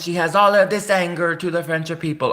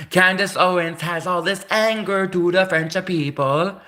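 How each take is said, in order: First: Said in the usual way. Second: Hammed-up Italian accent, higher; a put-on Italian accent; mock Italian accent. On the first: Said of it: "I can't do French". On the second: Shown as a demonstration. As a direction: play her as an Italian who dislikes the French. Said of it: "let's pretend she's an Italian".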